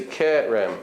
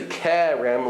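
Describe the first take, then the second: First: "Kerem" with a closer mid eh; Israeli pronunciation. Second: "Kerem" with a broad open eh. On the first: Teacher showing how they say it, Israeli Kerem. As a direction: narrow the first e of "Kerem", no glide. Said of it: "they say Kerem". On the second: Teacher showing how we say it, open Kerem. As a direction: widen the first e of "Kerem". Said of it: "They don't say Kerem like we do". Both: Shown as a demonstration.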